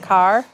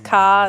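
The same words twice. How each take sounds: First: The r sound at the end is pronounced. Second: The r sound at the end is dropped. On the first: "instead of" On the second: "she must have been from Boston"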